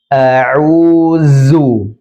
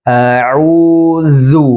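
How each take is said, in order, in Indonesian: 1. Huruf tengah itu adalah bunyi z yang berdengung. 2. Huruf tengah itu adalah bunyi z yang berdengung.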